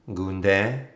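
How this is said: The name is said with a French flavor.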